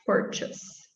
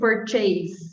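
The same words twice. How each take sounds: First: The last syllable has a weak schwa vowel. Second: The last syllable is said like 'chase'. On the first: The speaker calls it right. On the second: The speaker calls it wrong.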